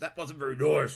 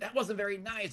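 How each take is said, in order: First: It is said in a deep Darth Vader-ish voice. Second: It is said in a squeaky normal voice.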